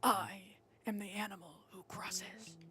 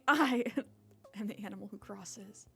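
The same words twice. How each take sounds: First: It is said in a put-on character voice. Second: It is said in the speaker's normal voice.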